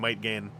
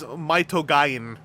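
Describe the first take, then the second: First: The name is said as two English words. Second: The name is said with Japanese-style syllables. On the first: "I am choosing to Romanize that pronunciation to Might Gain" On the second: "technically it is Maitogain"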